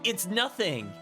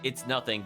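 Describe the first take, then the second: First: It is said angrily, in a shouty voice. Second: It is said calmly, without anger. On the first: "the angry, shouty face" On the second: "She said it more like"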